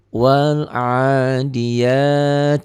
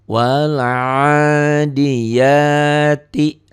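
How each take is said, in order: First: The phrase ends with a stopped 't' sound. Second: The phrase ends with an 'i' vowel after 't'. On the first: The reading stops at this word. "Bacanya kalau dihentikan jadi" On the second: The reading continues without stopping. "mad asli"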